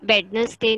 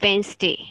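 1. बीच का 'nes' syllable पूरा बोला जाता है। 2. बीच का 'nes' सिलेबल छोड़ा जाता है। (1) "Wednesday नहीं है" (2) "इसको good वाली English में बोलते हैं Wednesday"

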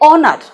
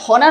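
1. শব্দটি স্বরধ্বনি দিয়ে শুরু হয়। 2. শব্দটি h ধ্বনি দিয়ে শুরু হয়। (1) "এইচ থাকলেও এটার উচ্চারণ হবে অনার" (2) "আবার অনেকে হনার অনার করলে কিন্তু হবে না"

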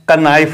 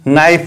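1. यह शब्द n से पहले k ध्वनि से शुरू होता है। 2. यह शब्द n ध्वनि से शुरू होता है, k नहीं। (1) "का नाइफ नहीं पढ़ा है" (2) "इसीलिए हमने इस वर्ड को नाइफ पढ़ा है"

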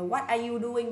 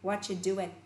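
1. Mọi từ đều được nói, kể cả 'are'. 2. Từ 'are' bị bỏ qua hoàn toàn. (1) "Không đọc bình thường là" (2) "mà đọc là"

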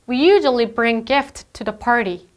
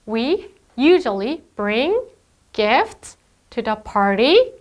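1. 문장 끝에서 음이 내려가요. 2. 문장 끝에서 음이 올라가요. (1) "이렇게 끝부분을 올리지 않아야" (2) "자꾸 끝을 올려요. 계속 질문하는 것 같죠?"

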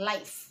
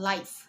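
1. สระออกเสียงเหมือน 'eye' ค่ะ 2. สระออกเสียงเหมือน 'eye' ค่ะ

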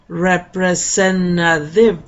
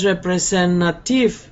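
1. La segunda T es suave, no una T clara. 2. La segunda T es una T clara y nítida. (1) "la segunda T tampoco suena como T" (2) "No es representative"

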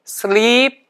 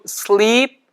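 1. 이 단어의 모음은 길어요. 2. 이 단어의 모음은 길어요.

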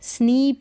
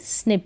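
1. स्वर लंबी ee ध्वनि है। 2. स्वर छोटी i ध्वनि है। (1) "यहाँ पर स्नीप नहीं पढ़ेंगे" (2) "आई को ई पढ़ेंगे छोटी ई के रूप में"

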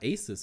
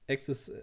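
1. Es wird wie das Wort aces ausgesprochen. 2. Es wird wie das Wort access ausgesprochen. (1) "Aces wird es ausgesprochen" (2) "Ich weiß echt nicht, wie man das ausspricht"

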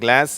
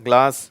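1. இது அமெரிக்க உச்சரிப்பில் சொல்லப்படுகிறது. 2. இது பிரிட்டிஷ் உச்சரிப்பில் சொல்லப்படுகிறது. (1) "அமெரிக்கர்கள் கிளாஸ் அப்படிங்கிறாங்க" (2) "ஆங்கிலேயர்கள் அதாவது இங்கிலாந்து நாட்டுக்காரங்க கிளாஸ் அப்படின்னு சொல்கிறாங்க"

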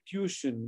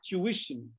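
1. यह शब्द आम भारतीय उच्चारण में है। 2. यह शब्द मानक उच्चारण में है। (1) "which is wrong" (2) "The correct pronunciation is tuition"

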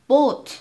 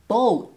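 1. 母音は一つの平らな音として保たれる。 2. 母音はある音から別の音へ滑る。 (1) "ボーって伸ばしちゃう" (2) "線にならないように"

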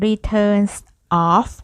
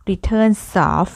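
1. สองคำนี้พูดแยกกัน ไม่เชื่อมกัน 2. เสียง s ท้ายคำเชื่อมกับคำถัดไป (1) "เปลี่ยนจาก" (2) "ในประโยคนี้จะมีการเชื่อมเสียง"

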